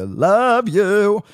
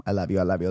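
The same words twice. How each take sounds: First: High, loud, drawn-out singsong elf; Christmas elf. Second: Lilting sung phrase, soft; singing softly. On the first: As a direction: sing it like a giddy elf. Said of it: "sounding like the elf just then". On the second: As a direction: croon it gently. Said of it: "cut it with the singing". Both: Pretend.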